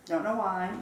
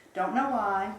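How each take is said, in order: Both takes have the same delivery.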